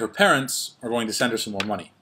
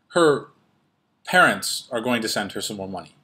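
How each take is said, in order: First: The pause falls at a natural phrase boundary. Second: A pause breaks up the middle of a clause. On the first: The speaker calls it right. "You would say" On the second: The speaker calls it wrong. "you wouldn't say"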